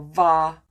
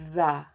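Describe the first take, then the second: First: The word starts with a v sound. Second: The word starts with a voiced th sound. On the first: The speaker calls it wrong. "or va" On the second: The speaker calls it right. "You can say the"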